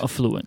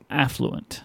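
First: The stress is on the second syllable. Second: The stress is on the first syllable. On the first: The speaker calls it wrong. "Not affluent" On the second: The speaker calls it right. "What's the right way to say it?"

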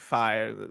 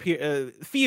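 First: The vowel sounds like the one in 'sigh'. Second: The vowel sounds like the one in 'see'. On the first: The speaker calls it wrong. "It's not like Fi" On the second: The speaker calls it right. "Fee only Fee is the correct pronunciation of that"

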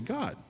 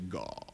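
First: The word is said in a plain, everyday voice. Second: The word is said in a showy, pious voice. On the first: The speaker is just talking normally. "when you're normal, you say" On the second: The speaker is trying to sound very spiritual. "when you're real spiritual, you say"

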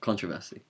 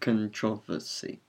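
First: The word is said with one syllable fewer. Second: The word is said with an extra syllable. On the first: The speaker calls it wrong. "Not controversy" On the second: The speaker calls it right. "because it has an extra syllable, I prefer it"

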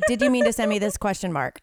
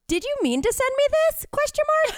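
First: It is said flatly, without emotion. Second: It is said with lively emotion.

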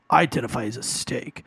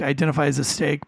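First: It is said in a snarky, attitude-filled tone. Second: It is said in a plain, neutral tone. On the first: The line is taken as a sarcastic jab. "But I read that in your tone was" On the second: The line is taken as a harmless joke. "I do like the joke"

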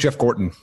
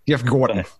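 First: The name is said in his plain accent. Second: The name is said in a New York accent.

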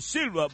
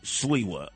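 First: The name is said as 'Silva', Spanish style. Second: The name is said as 'Sliwa', Polish style. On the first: The name is treated as Puerto Rican. The speaker calls it wrong. "He said, Corte Silva, vaya!" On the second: The name is treated as Polish. The speaker calls it right. "You want to pronounce it the right way, Polish way"

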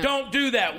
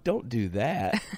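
First: It is said flatly and sternly, like a transcript. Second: It is said playfully, flirting and laughing.

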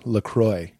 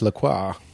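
First: The last syllable rhymes with 'boy'. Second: The last syllable is said the French way, 'crwah'. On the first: "It rhymes with boy" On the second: "people that speak French would say it's LaCroix"

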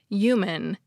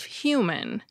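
First: The word begins without an H sound. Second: The word begins with an H sound. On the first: This is a regional way of saying it. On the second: This is the common standard way of saying it.

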